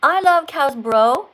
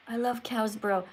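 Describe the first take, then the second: First: Loud, emphatic rereading; deliberate retry. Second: Softly reread, half to yourself; puzzled rereading. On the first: Teacher retrying a confusing viewer comment, loud and deliberate. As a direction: read it out again firmly and loudly. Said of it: "Let's t-, try this again". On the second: Teacher puzzling over a viewer's comment, quiet and unsure. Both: Real, not acted.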